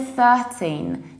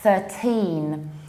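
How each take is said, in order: First: The stress is on the first syllable. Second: The stress is on the second syllable. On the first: The speaker calls it wrong. "You don't say thirteen" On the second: The speaker calls it right. "you need to put the stress on the second syllable"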